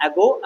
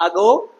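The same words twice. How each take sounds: First: "ago" as AG-oh, open "a" first; American pronunciation. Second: "ago" as uh-GOH, schwa first; British pronunciation. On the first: Teacher recapping for students, American "ago" as AG-oh. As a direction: say "ago" with the "a" of "cat". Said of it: "American English का pronunciation है". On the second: Teacher recapping for students, British "ago" as uh-GOH. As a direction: say "ago" with a weak opening vowel. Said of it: "British English का pronunciation है". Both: Shown as a demonstration.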